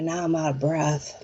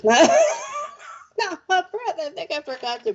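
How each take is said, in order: First: Said in the usual way. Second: High, breathless laugh through the words; real laughing, out of breath. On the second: Real, not acted. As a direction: laugh it out, winded and giddy.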